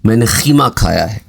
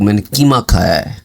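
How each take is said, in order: First: Qeema begins with a rough kh sound. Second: Qeema begins with a light, plain k sound. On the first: This is how a speaker from Hyderabad says it. "क़ाफ़ को खे के sound में pronounce करते हैं" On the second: This is how a Punjabi speaker says it. "Punjab के लोग"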